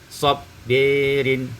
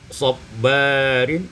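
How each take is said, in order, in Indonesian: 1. Vokal setelah b condong ke e. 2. Vokal setelah b adalah a terbuka biasa.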